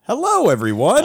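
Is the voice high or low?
high. It is said at a higher pitch.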